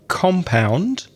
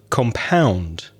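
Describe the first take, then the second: First: The stress is on the first syllable. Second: The stress is on the second syllable. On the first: It names an enclosed area with buildings. "when you change the stress from the first syllable" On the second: It means to mix or combine something. "to the second syllable"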